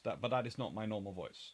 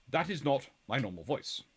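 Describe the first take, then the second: First: Said in the usual way. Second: The school-taught posh British accent; posh upper-class English. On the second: Shown as a demonstration. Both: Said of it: "my normal voice is this one".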